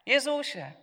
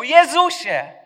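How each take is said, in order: First: A higher, mild call. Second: High, loud desperate shout. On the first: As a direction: call his name, not yet shouting. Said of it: "Wołał". (wysokie, łagodne zawołanie) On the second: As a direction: scream his name with all your strength. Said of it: "a potem krzyczał". (głośny, wysoki, rozpaczliwy krzyk) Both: Acted.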